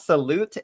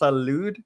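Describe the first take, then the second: First: The word ends with a T sound. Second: The word ends with a D sound. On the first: The speaker calls it wrong. "it's not salute" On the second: The speaker calls it right. "it's salud"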